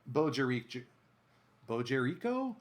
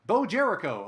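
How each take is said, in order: First: "Bo Jericho" with the stress off its usual first syllable; misplaced syllable stress. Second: "Bo Jericho" as BOH JER-i-koh, high and loud; corrected syllable stress. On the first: Announcer thanking a new follower, unsure stress on "Jericho". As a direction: try "Bo Jericho" tentatively, leaning on "RI" in Jericho. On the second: Announcer correcting a follower's name, firm stress on "JER" in Jericho. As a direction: punch "Bo" and the first syllable of "Jericho". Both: Real, not acted. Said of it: "Emphasis on the wrong syllable".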